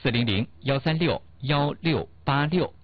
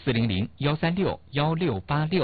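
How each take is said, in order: First: The number is said slowly. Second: The number is said at normal speed.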